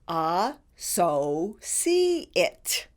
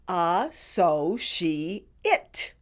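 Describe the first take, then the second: First: The C is said as an S sound. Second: The C is said as an SH sound. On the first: "you can also pronounce the C as an S" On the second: "all the syllables put together are pronounced"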